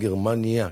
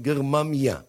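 First: The consonant before the final syllable is n. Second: The consonant before the final syllable is m. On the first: This is the usual modern form of the name. "כמונו עם נון" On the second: This is the form used by the early sages. "הם לא אומרים גרמניה"

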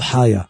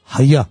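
First: The stress is on the first syllable. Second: The stress is on the last syllable. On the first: The speaker calls it wrong. "לא חיה" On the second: The speaker calls it right. "אלא חיה מלרע"

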